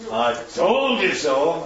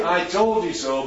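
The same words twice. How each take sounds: First: Slow, gloating I told you so; slow reproachful told-you-so; smug told-you-so. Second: Said in the usual way. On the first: Shown as a demonstration. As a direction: drag it out to rub it in. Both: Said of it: "but not".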